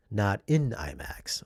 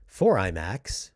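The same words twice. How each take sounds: First: "in" picked out before imax; slow, deliberate emphasis on "in"; stress on in. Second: "for" picked out before imax; slow, deliberate emphasis on "for"; stress on for. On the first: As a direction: lean on the word "in" to correct. Contrasts in imax with for imax. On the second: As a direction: lean firmly on the word "for". Contrasts for imax with in imax. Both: Real, not acted.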